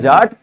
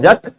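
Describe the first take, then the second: First: The word is said with a long vowel. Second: The word is said with a short vowel. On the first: This is how Hindus say the name. "Hindu धर्म में जे एटी जट जाट बोलते हैं" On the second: This is how Sikhs say the name. "सिखों में जे एटी जट लिखा जाता है"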